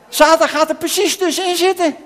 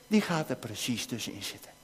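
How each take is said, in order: First: Louder and higher, leaning hard on Satan; dramatic announcement. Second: Much softer and lower, almost confiding; hushed warning. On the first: Preacher to the children as Satan interrupts, loud and dramatic. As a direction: proclaim it like a warning bell. Satan steps between the two. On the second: Preacher telling the children how the enemy interrupts, hushed. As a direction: let it sink in quietly, ominous. Repeats the point about the enemy. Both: Acted.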